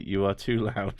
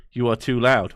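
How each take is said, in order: First: Softly played subliminal message; low, soft pretend recording. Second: Said in the usual way. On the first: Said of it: "play softly".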